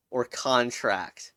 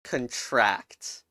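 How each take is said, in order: First: "contract" said as CON-tract, full first syllable stressed; noun stress. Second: "contract" said as con-TRACT, weak first syllable, stress on the second; verb stress. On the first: Offering the noun meaning agreement, CON-tract. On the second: Naming the verb meaning shrink, con-TRACT. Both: Shown as a demonstration. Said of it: "punning a nice little word called".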